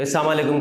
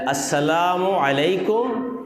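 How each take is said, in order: First: السلام علیکم shortened to "saamalekum"; mispronounced greeting. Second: السلام علیکم slowly, every syllable full; correct greeting. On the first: Preacher imitates careless greeters, السلام علیکم said as "saamalekum". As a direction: swallow the first sounds of السلام علیکم. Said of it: "کبھی کبھی آپ نے دیکھا ہوگا، ایسے کر دیا". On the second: Preacher models the proper greeting, السلام علیکم slow and complete. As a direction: draw out السلام علیکم with each sound clear. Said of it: "صحیح سلام". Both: Shown as a demonstration.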